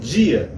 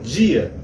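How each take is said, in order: First: The d sounds like j before the vowel. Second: The same.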